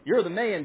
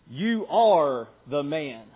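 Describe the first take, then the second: First: It is said in a playful, admiring tone. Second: It is said in a serious, accusing tone. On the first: The listener is being praised. The speaker calls it wrong. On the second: The listener is the guilty person. The speaker calls it right.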